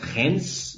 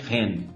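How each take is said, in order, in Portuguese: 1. O nome é dito do jeito comum no Brasil. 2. O nome é dito como um 'Ren' curto. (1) "muita gente no Brasil fala Reims" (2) "aqui no podcast eu vou chamar de Ren"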